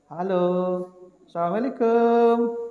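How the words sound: It is said in a coy, flirtatious way.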